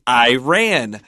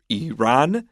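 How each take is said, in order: First: The first syllable sounds like the word 'I'. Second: The first syllable does not sound like 'I'. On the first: The speaker is from a poorer background. "we used to call it Iran. And like I ran" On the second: The speaker is educated. "most educated people would call this country Iran"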